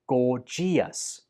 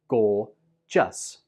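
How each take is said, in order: First: The word is said with three syllables. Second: The word is said with two syllables. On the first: The speaker calls it wrong. "I hear many students pronounce this with three syllables, like" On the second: The speaker calls it right. "This word only has two syllables"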